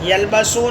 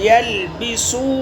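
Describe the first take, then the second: First: The vowel after the b is 'a'. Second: The vowel after the b is 'i'. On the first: The speaker calls it wrong. "यलबसू नहीं है" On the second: The speaker calls it right. "बा का ज़बर नहीं, ज़ेर सही है"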